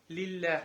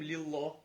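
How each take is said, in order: First: The L is pronounced light and soft. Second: The L is pronounced heavy and thick. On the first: The speaker calls it right. "а когда произносим мягко" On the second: The speaker calls it wrong. "Мы не говорим лиллах"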